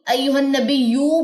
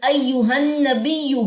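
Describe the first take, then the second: First: The final vowel is drawn out long. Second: The final vowel is kept short. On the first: The speaker calls it wrong. "बाज लोग पढ़ देते हैं" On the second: The speaker calls it right. "पेश भी लंबी नहीं होगी"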